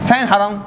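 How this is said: It is said in a modern Hijazi accent.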